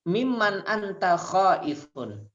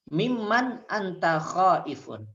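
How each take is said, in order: No difference in how they are said.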